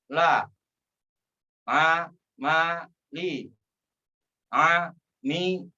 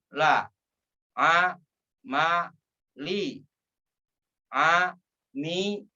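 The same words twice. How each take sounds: The two takes are said the same way.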